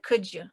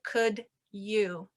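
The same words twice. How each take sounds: First: The D and Y blend into a J sound. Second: The D and Y sounds stay separate. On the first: "The D and the Y kind of meet in the middle of my mouth and it sounds like could you" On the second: "it doesn't sound like could you"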